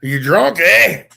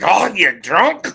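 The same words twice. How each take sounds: First: Irish question lifting on "eh"; light Irish accent, louder lifted "eh" at the end. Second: Slow, higher Scottish outburst; drawn-out Scottish "drunk", pitched up; Scottish accent. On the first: Showing how Irish asks "you drunk", questioning Irish accent. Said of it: "it sounds like a question". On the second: Showing a friend the Scottish version, slow rough Scottish accent. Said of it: "Scottish like". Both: Shown as a demonstration.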